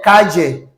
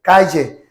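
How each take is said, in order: No difference in how they are said.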